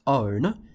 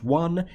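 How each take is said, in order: First: The word is said like 'own'. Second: The word is said like 'won'. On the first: This is how the spelling suggests it. The speaker calls it wrong. "should have ended up being pronounced own, ... the way it's spelt" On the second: This is how it is actually said. The speaker calls it right. "It's pronounced one"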